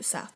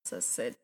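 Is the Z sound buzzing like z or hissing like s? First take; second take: hissing s; buzzing z. First: The letter is said with a hissing s sound. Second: The letter is said with a buzzing z sound. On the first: This is how Swedish says it. "Här är ju Z" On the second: This is how English says it. "i typ engelska så är det Z"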